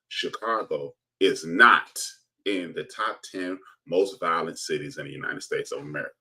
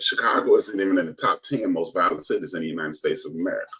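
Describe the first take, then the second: First: It is said very slowly. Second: It is said at normal speed.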